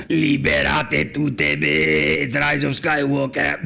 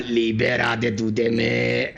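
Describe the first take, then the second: First: Mock dramatic quote. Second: Said low and drawn out; deep slow dramatic delivery; low slow mock line. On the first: Mock quoting Rey line. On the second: Repeats quote lower, slower.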